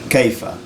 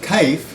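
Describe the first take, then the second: First: It has a diphthong and a final a. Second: It has a diphthong and no final vowel. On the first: "the word how in Fusha is kaifa" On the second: "even if you have kaif"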